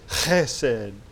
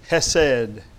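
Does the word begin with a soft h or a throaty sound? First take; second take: throaty; soft h. First: The word begins with a rough, throaty sound. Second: The word begins with a soft, plain h.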